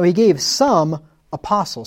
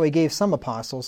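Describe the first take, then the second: First: There is a pause after "some". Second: The phrase runs on with no pause. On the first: Some people were given as apostles. The speaker calls it right. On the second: Only a few apostles were given. The speaker calls it wrong. "If you read that without the commas"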